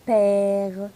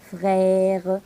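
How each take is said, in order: First: Père with a wide open è. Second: Frère with a wide open è. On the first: Teacher modelling père, open è. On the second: Teacher modelling frère, open è. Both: Shown as a demonstration. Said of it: "On va ouvrir la bouche".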